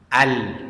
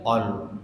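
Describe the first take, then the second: First: The vowel is an open 'a' sound. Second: The vowel is a rounded 'o' sound. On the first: The speaker calls it right. "alif itu terbuka mulut" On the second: The speaker calls it wrong. "Jadi bukan ol"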